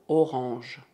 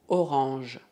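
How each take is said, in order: No difference in how they are said.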